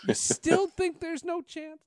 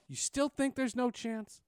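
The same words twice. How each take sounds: First: High, loud, slow laughing taunt; laughing tease. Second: Slow, higher mock needling; teasing. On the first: Retold or imitated. Teasing the old anchor, laughing high and loud. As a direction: crack up while needling him. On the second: Teasing the old anchor about his call, slow and mocking. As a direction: rub it in slowly. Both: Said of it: "I tease him all the time".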